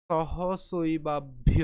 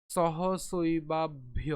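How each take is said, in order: First: Slow শৈবাভ্য with a pressed aspirated ভ; clear bha. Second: Slow শৈবাভ্য with a pressed aspirated ভ; heavy bha. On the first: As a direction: push air on ভ. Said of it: "ব এবং ভয়ের উচ্চারণের মধ্যে". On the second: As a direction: stress the ভ in শৈবাভ্য hard. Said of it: "কেমন হবে তাহলে?". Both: Shown as a demonstration. (ভ-তে চাপ দিয়ে ধীরে)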